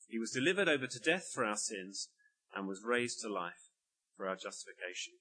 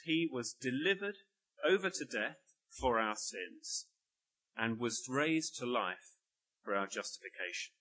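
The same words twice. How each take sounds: First: Said in the usual way. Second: Slow, measured reading of the verse, weighing each phrase; a preacher slowly reading the verse aloud; slow scripture reading. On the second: Shown as a demonstration. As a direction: read it slowly, phrase by phrase, leaning on "for". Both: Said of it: "Let me read".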